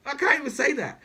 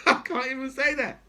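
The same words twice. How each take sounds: First: Said in the usual way. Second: Laughing. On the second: Real, not acted. Laughing at own outrage.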